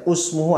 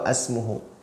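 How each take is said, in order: First: The word begins with a u vowel. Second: The word begins with an a vowel. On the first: "tidak boleh dibaca usmuhu" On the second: "atau asmuhu"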